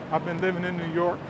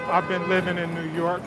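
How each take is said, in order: Both takes have the same delivery.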